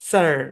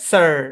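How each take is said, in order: No difference in how they are said.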